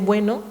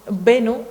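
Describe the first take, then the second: First: The first vowel is a diphthong. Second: The first vowel is a single vowel. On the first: This is the standard form. "en vez de" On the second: This is the Saharawi dialect form. "ejemplos de monoptongación"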